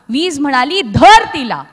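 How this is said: The last word is split into two.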